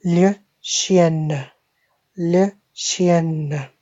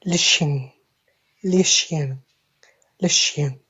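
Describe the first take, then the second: First: "le chien" slowly as shee-ENN-uh, N fully sounded; French feminine form. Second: "le chien" with a nasal ending, shee-anh; French masculine form. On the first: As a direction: draw out "le chien" with a long N and small final uh. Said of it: "Female dog". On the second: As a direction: drill "le chien" leaving the N in the nose. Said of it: "a male dog". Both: Shown as a demonstration.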